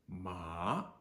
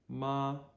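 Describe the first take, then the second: First: The pitch rises from low to high. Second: The pitch stays high and level. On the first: "Second tone, low to high, rising" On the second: "first tone, high flat"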